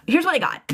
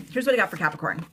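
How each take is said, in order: First: High, louder announcement; eager card reveal; excited reveal. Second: Said in the usual way. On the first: Real, not acted. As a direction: burst out with the news. Excited reveal of tarot cards.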